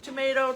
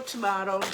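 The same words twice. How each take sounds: First: "Tomato" with a long ay in the middle, tuh-MAY-toh; tomato, "ay" version. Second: "tomato" with a broad ah in the middle, tuh-MAH-toh; tomato, "ah" version. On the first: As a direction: stress the middle of "Tomato", rhyming it with potato. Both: Shown as a demonstration. Two pronunciations of tomato contrasted.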